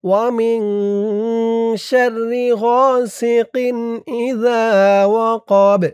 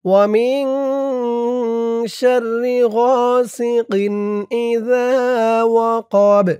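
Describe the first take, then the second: Both takes have the same delivery.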